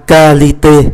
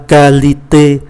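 No difference in how they are said.

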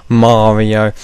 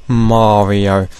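Both takes have the same delivery.

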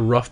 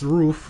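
First: The word has a short vowel, like 'rough'. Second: The word has a long vowel, like 'roof'. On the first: The speaker calls it wrong. "I used to say rough before" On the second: The speaker calls it right. "it's pronounced roof, like the roof of a house"

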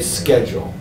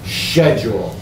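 First: The word is said with the local pronunciation. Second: The word is said with a British pronunciation. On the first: This is how it is said locally. "Here we say schedule" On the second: This is how it is said in England. "the English pronunciation is schedule"

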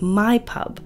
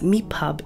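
First: The first word sounds like 'my'. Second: The first word sounds like 'me'. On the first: "instead of "my pub."" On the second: "Tommy says, "me pub""

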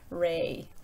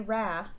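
First: The vowel is a long A sound. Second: The vowel is not a long A sound. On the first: The speaker calls it right. "It's going to probably be pronounced ray" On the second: The speaker calls it wrong. "I'm not going to say ra because there's no consonant at the end"

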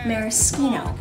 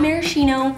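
First: The middle consonant is pronounced 'sk'. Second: The middle consonant is pronounced 'sh'. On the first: The speaker calls it right. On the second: The speaker calls it wrong.

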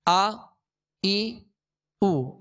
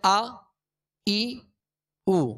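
Both takes have the same delivery.

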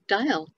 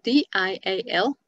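First: The word is said with one syllable. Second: The word is said with two syllables. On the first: "like smile, which is only one syllable" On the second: "dial is D-I-A-L"

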